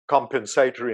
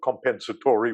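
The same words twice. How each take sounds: First: The word is said the Australian way. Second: The word is said a non-Australian way. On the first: "I've also gone back to saying compensatory" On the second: "instead of compensatory, which I could never get my head around"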